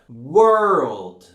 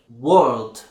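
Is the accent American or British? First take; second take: American; British. First: It has a strong R after the vowel. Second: It has no R after the vowel. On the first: "it needs to be pronounced very strongly" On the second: "British people wouldn't pronounce it"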